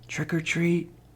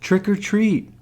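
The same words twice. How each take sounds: First: It is said very softly. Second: It is said a little louder.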